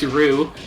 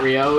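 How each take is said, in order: First: It is said as one short syllable, 'roo'. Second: It is said with two syllables, ending in 'oh'. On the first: "or if you're Seth Killian, it's Rue" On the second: "It's not Rio"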